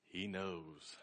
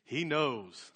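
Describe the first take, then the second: First: Much softer, lower echo; hushed awe. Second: Understated triumphant crow, full voice. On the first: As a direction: let it sink to a private, knowing murmur. Crowed line repeated, hushed. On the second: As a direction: savor it proudly, letting the last word fall. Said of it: "he crowed". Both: Retold or imitated.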